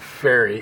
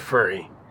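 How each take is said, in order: First: The word is said in a general American accent. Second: The word is said in a New Jersey accent. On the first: "so it's not a ferry" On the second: "It's a furry that you ride in a boat"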